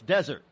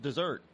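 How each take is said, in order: First: It sounds like the word for sandy land. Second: It sounds like the word for a sweet. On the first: This is the usual way to say it. The speaker calls it right. "No, it's desert" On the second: This is how people in Maine say it. The speaker calls it wrong. "up over in Maine, they pronounce desert dessert"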